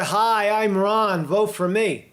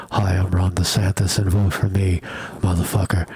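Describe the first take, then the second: First: A lighter campaign read, off the mic; mic further back. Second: Lower, right-on-the-mic announcer voice; mock close-mic ad voice. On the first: Shown as a demonstration. Host showing how the ad's voice sits back from the mic. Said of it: "he sounds more like this back here". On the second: Host mocking a close-mic campaign ad, booming. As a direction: boom it out like a cheesy political ad. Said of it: "he doesn't sound like".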